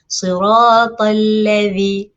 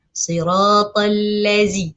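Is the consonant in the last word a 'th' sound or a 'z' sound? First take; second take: th sound; z sound. First: The consonant is a soft 'th' sound. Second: The consonant is a buzzing 'z' sound. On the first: The speaker calls it right. "huruf zal" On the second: The speaker calls it wrong. "huruf zai"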